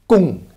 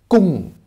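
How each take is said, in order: Both takes have the same delivery.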